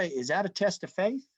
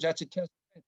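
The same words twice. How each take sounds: First: Curious rising tune on test of faith; asked as a question. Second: That's stressed and settled; firm statement. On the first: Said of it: "Now, is that a". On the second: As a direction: state it firmly, leaning on that's. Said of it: "When you put it in real terms". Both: Shown as a demonstration.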